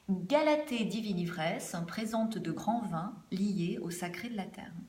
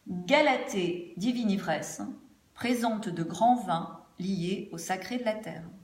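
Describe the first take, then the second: First: The voice sounds thinner, with less presence. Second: The voice sounds fuller, with more presence. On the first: The speaker calls it wrong. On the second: The speaker calls it right.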